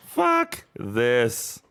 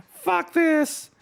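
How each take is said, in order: First: Said in the usual way. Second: High squeaky fuck this; squeaky exasperation. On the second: Real, not acted. Streamer giving up on game, high squeaky curse. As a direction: squeak it out in disgust.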